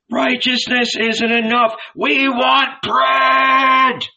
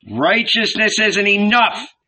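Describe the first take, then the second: First: High, loud, dragged-out demand; angry demand. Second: High, louder protest; angry heckling. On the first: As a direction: demand it furiously. Famished crowd demands. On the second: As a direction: cut in angrily. Famished heckler interrupts. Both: A narrator's reading.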